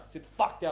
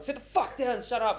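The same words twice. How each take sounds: First: Retold firm command, slightly raised; firm order. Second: Higher, exasperated retold command; escalated angry order. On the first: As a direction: order a troublemaker to stay seated, still controlled. First retold order to troublemaker. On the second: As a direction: snap at someone who won't stay seated.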